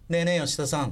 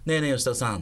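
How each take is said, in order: First: The call is aimed at someone up high. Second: The call is aimed at someone straight ahead. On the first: The person being called is up in a tree. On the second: The person being called is directly in front.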